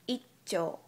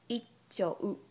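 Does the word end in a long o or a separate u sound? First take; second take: long o; u sound. First: The word ends with a long o sound. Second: The word ends with a separate u sound. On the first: The speaker calls it right. "ignore the last U sound and pronounce O sound right before U longer" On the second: The speaker calls it wrong. "it's not"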